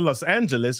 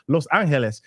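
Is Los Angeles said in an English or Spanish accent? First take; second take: English; Spanish. First: It is said with a plain English accent. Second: It is said with a Spanish accent.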